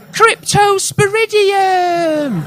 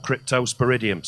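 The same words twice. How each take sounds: First: Cryptosporidium cast much higher, slowed and drawn out like a wizard's incantation; Harry Potter spell. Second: Said in the usual way. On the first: Acted. Comic casting the parasite's name as a Harry Potter spell, drawn out. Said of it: "sounds like a Harry Potter spell". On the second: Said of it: "Also sounds like a Harry Potter spell".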